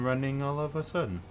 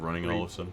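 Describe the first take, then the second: First: Every word is pronounced fully and crisply. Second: The words are said casually, with normal reductions. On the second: "Instead of"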